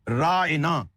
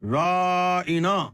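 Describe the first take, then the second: First: The word is said plainly, without stretching. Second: The word is said with a stretched, drawn-out vowel. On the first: A polite request for attention or indulgence. "उस वक्त excuse me की जगह बोलते थे हमें रियायत दें" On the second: A mocking insult meaning a mad man. "इस लफ्ज को खींच के बोलते"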